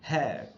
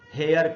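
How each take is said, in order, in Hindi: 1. शब्द का अंत 'eh' से होता है जो श्वा में बदल जाता है। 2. शब्द का अंत एक पूरे 'yar' शब्दांश से होता है। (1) "ऐसे हेयर" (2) "वो सब गलत प्रोनाउंसिएशन है"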